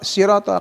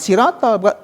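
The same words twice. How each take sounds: First: The s sound is heavy and full. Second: The s sound is light and thin. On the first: The speaker calls it right. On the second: The speaker calls it wrong.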